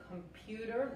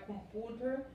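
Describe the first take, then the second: First: "computer" with a y-glide before the U, com-PYU-ter; correct English pronunciation. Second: "computer" with a plain Spanish U, com-PU-ter; mispronounced computer. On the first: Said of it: "esto se pronuncia computer". ("computer" con sonido de ye delante de la u) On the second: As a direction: drop the y-glide from "computer", saying com-POO-ter. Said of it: "no hay computer". ("computer" mal dicho, con u española sin ye) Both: Shown as a demonstration.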